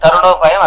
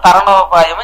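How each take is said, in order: First: The second syllable is said as 'ru'. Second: The second syllable is said as 'ra'. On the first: It means a way to stay young. The speaker calls it wrong. "తరుణోపాయం అనకండి" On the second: It means a way of crossing over. The speaker calls it right. "తరుణోపాయం అని చెప్పండి"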